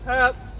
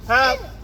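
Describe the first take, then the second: First: It is a high, piercing, whistle-like shout. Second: It is a high, piercing, whistle-like shout.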